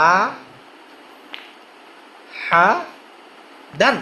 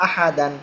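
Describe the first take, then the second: First: "আ, হা, দান" as separate syllables with long pauses. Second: Said in the usual way. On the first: Shown as a demonstration. Teacher showing learners how to pronounce one by one, "আ, হা, দান" separated by long pauses. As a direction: break it into "আ", then "হা", then "দান", each standing alone. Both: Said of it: "একটা একটা উচ্চারণ করবেন".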